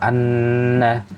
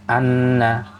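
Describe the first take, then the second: First: The nasal n sound is held long. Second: The nasal n sound is cut short. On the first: The speaker calls it right. "ditahannya harusnya lebih lama" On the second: The speaker calls it wrong. "dibaca cuman anna"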